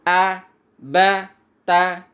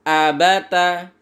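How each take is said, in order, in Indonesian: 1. Setiap suku kata diucapkan terpisah dengan jeda. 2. Suku kata disambung tanpa jeda. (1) "membacanya dengan terpisah-pisah" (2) "Standar sedangnya adalah membaca abata"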